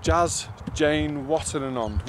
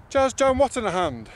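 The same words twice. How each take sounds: First: Jazz Jane Watananond said slowly and carefully; slow careful Jazz Jane Watananond, stress on Jazz; corrected name. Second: Jazz Jan Watanahand, botched ending -hand; mispronounced name. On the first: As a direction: practise Watananond slowly, syllable by syllable. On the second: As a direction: stumble on Watanahand with a hand sound. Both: Shown as a demonstration. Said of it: "that's not how you say it".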